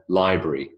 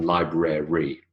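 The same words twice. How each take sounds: First: "library" said as LIE-bree; elided library. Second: "library" in three syllables, LIE-BRA-REE; over-full library. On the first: Lecturer showing students the elided form, two-syllable "library". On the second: Lecturer showing the form to avoid, three-syllable "library". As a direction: sound out every syllable of "library". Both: Shown as a demonstration. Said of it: "rather than library".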